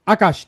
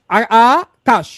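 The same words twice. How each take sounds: First: Said in the usual way. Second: Akash split as "aa", then "kaash"; Akash syllable by syllable, with a gap before "kaash"; broken into syllables. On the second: Shown as a demonstration. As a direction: break Akash in two, stretching the opening "aa". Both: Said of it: "শব্দকে ভেঙে উচ্চারণ করি".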